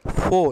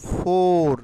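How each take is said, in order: First: "ফো" ending on an open O; "ফো" with the final R silent; R-less pronunciation. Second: Loud, drawn-out "ফোর" with the R sounded; "ফোর" dragged out loudly to show the mistake; dragged-out wrong form. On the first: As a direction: say "ফো" as foh, no R. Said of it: "ফো". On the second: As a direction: stretch "ফোর" long, R at the end. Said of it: "টেনে বলবো না". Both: Shown as a demonstration.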